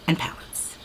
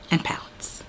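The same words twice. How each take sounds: The two takes are said the same way.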